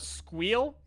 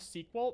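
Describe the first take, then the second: First: It is said as one word rhyming with 'meal'. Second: It is said as the two-syllable word 'sequel'. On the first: The speaker calls it right. "it is objectively and incontrovertibly pronounced Squeal" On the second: The speaker calls it wrong. "you're wrong, sequel. No, it's definitely Squeal"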